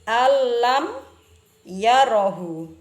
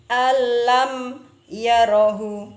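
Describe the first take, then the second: Both takes have the same delivery.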